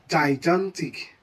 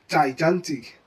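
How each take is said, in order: Both takes have the same delivery.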